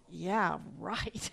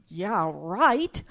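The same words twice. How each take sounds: First: Muttered low and quiet, disbelieving; sarcastic thought. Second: Amused, scoffing retake after a laugh; sarcastic scoff. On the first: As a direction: mutter it to yourself, unconvinced. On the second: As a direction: toss it off with a mocking edge. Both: Retold or imitated. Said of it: "I thought".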